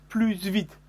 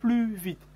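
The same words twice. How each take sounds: First: The S at the end of plus is pronounced. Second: The S at the end of plus is silent. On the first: The speaker calls it wrong. "Je n'ai pas dit plus vite, c'est une erreur" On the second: The speaker calls it right. "Il faut dire plus vite"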